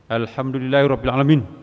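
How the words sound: It is recited harshly, sounding angry.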